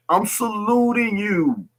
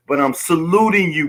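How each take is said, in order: First: Slow, high whispered salute. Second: Said in the usual way. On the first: Real, not acted. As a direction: whisper the salute slowly to the brothers. Repeats salute, second time whispered.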